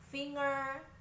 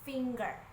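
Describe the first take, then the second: First: It rhymes with singer, with no g sound. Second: The g is said as a hard g. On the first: The speaker calls it wrong. "finger juga dibaca dengan cara yang sama. Singer" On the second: The speaker calls it right. "Yang benar adalah finger"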